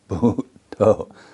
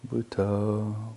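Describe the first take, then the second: First: It is said with firm, steady emphasis. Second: It is said slowly with low, sleepy energy. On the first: The meditator is raising the energy level. The speaker calls it right. "you can repeat it with a bit more emphasis" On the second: The meditator is drifting toward sleep. The speaker calls it wrong. "don't say Butoh, Butoh, Butoh. You just drift off to sleep"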